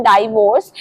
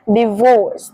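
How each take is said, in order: First: "डाइवोर्स" said as DIE-vorce; first syllable of "डाइवोर्स" like "die"; common mispronunciation. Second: "डिवोर्स" said as dih-VORCE; short i at the start of "डिवोर्स"; correct pronunciation. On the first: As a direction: open "डाइवोर्स" with a long eye sound. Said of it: "बहुत सारे लोग इसे बोलते हैं". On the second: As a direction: model "डिवोर्स" with a light dih, then VORCE. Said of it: "इसे सही तरीके से बोलना है". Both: Shown as a demonstration.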